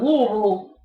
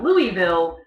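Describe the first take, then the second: First: The name is said the local Kentucky way. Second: The name is said the outsider's way. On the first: The speaker is a native of Kentucky. "you know they're native Kentuckian" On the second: The speaker is not from Kentucky. "they are not from Kentucky"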